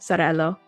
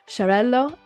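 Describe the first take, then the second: First: The word begins with a z sound. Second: The word begins with a sh sound. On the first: The speaker calls it wrong. "I always say it with a Z" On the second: The speaker calls it right. "I need to say it like the sh"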